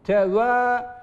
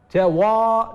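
First: The a vowel is thin and fronted. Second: The a vowel is thick and back. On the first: The speaker calls it right. "Harf incedir ama a sesiyle gelecek yine" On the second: The speaker calls it wrong. "teva diye kalın olmaz"

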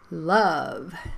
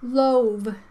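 First: The vowel is a short uh sound. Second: The vowel is a long oh sound. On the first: The speaker calls it right. "You have to say" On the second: The speaker calls it wrong. "Magic E, right?"

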